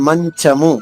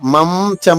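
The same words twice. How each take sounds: First: The nasal is made with the tongue middle. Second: The nasal is made with the lips closed. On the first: The speaker calls it right. "ఆ నాలిక మధ్య భాగమే రెండు అక్షరాలకి కలుస్తుంది" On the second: The speaker calls it wrong. "పెదవులు కలవం, మనం మంచము అని చెప్పం"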